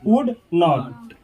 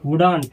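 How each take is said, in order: First: It is said as two full words. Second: It is merged into one short word. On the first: "वुड नॉट पढ़े" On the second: "या नहीं तो ऐसे बोलेंगे वुडंट"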